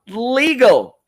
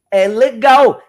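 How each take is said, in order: First: "legal" said the English way, LEE-gul; "legal" as English "lee-gl", not Portuguese "le-gau"; English pronunciation. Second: Said in the usual way. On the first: Shown as a demonstration. Teacher showing viewers English "legal". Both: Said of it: "legal em inglês é legal".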